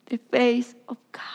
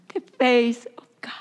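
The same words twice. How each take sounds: First: Breathy whisper, almost no voice. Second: Said in the usual way. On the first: Acted. Preacher whispering to the congregation, hushed. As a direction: hush it like a secret revelation. Preacher repeats phrase softly.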